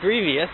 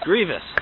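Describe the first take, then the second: First: The word is said with three syllables. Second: The word is said with two syllables. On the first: The speaker calls it wrong. "not grievous" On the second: The speaker calls it right. "Two syllables"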